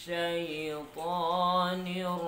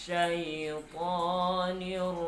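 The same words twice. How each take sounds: No difference in how they are said.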